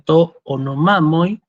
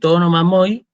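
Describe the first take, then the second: First: The first word is kept separate from the next. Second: The words are run together as one chunk. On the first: The speaker calls it right. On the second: The speaker calls it wrong.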